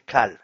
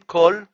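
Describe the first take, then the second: First: The word is said with an 'a' vowel. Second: The word is said with an 'o' vowel. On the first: This is the Aramaic form of the word. The speaker calls it right. "בארמית זה קל" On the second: This is the Hebrew form of the word. The speaker calls it wrong. "לא אומרים קול, כי זה בארמית"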